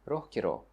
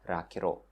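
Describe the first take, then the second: First: The first vowel is an 'o' sound. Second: The first vowel is an 'a' sound. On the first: This is the common standard form. "instead of ро" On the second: This is how northern speakers say it. "in the north we say раҳгиро"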